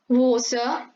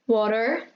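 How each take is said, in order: First: It is said in a British accent. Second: It is said in an American accent.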